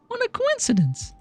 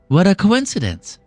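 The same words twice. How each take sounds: First: It is said in a squeaky Mickey Mouse-like voice. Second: It is said in a lower young man's voice.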